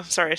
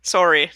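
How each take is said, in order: First: "sorry" with an open "sah" vowel; corrected American "sorry". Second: "Sorry" with a rounded "sore" vowel; Canadian "sorry". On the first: Canadian corrects herself, "sorry" as SAH-ree. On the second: Canadian slips back to her own way, "Sorry" as SORE-ee. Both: Shown as a demonstration. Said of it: "No, sorry".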